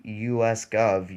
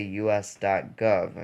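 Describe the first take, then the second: First: "U S Gov" with no "dot"; wrong way. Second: "U S dot gov" with "dot" said clearly; right way. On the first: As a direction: run "U S Gov" straight together. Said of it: "you don't say U S Gov". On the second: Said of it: "you say U S dot gov". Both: Shown as a demonstration.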